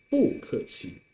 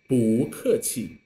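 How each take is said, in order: First: 不客气 with 不 falling as fourth tone; bù kèqi as fourth tone. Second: 不客气 with 不 rising as second tone; bù kèqi as second tone. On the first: Teacher contrasts the avoided reading for the class, falling 不. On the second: Teacher models the correct tone to the class, rising 不. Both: Shown as a demonstration. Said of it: "instead of".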